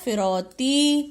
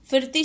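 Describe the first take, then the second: First: फिरौती slow, with a long औ; फिरौती stretched as "fi-rau-tee"; corrected word. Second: फिरती with no vowel stretch after र; quick फिरती without any औ; misspelt word. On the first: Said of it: "क्या होता है". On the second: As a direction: say फिरती as "fir-ti". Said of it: "शब्द नहीं होता". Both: Shown as a demonstration.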